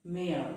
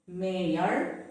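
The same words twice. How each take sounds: First: Mayor as one short syllable, "mair", falling; mayor rhyming with air; correct pronunciation. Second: Mayor drawn into "may-yer", rising at the end; mayor with an audible Y; wrong pronunciation. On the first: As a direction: say mayor with a silent Y. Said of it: "but it is pronounced as". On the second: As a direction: sound the Y in mayor, pitch lifting. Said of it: "So it is not". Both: Shown as a demonstration.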